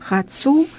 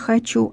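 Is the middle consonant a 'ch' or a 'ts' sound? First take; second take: ts; ch. First: The middle consonant is a 'ts' sound. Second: The middle consonant is a 'ch' sound. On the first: This is how dialect speakers say it. "У них нет «че», у них есть «це»" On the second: This is the standard pronunciation. "вместо"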